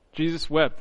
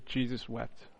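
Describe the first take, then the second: First: Said in the usual way. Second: Soft, hushed reading, much quieter, letting "Jesus wept." sink in; barely above a murmur, reverent; hushed and simple. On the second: Shown as a demonstration. Preacher reading the shortest verse aloud, hushed and reverent. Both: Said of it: "as it says simply".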